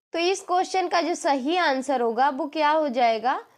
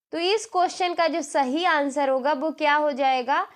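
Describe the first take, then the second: The two takes are said the same way.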